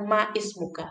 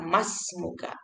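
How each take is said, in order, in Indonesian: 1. Bunyi i pada ismuka dibaca terpisah. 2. Bunyi i dihilangkan, langsung disambung ke smuka. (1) "jangan ma ismuka" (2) "langsung baca mas muka"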